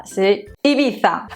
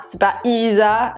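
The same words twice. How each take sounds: First: Ibiza with a lisped Spanish Z, a bit slow; Spanish-style Ibiza. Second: Ibiza with a French Z; French-style Ibiza. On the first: Correcting French viewers with the Spanish way. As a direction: say Ibiza like in Spain. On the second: Showing French viewers the wrong version. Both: Shown as a demonstration.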